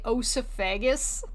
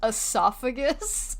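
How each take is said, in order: First: The first vowel sounds like 'oh'. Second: The first vowel sounds like 'eh'. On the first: The speaker calls it wrong. "Did you just say osophagus?" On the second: The speaker calls it right. "It's pronounced esophagus"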